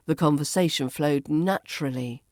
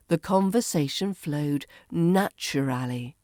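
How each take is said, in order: First: "naturally" as NATCH-ruh-lee; reduced form. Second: "naturally" as NATCH-uh-RAL-ee; full form. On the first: Teacher models the shortened form for learners, "naturally" as NATCH-ruh-lee. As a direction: squeeze "naturally" short at the end. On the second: Teacher models the long form for learners, "naturally" fully sounded. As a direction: sound each syllable of "naturally". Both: Shown as a demonstration. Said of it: "becomes naturally".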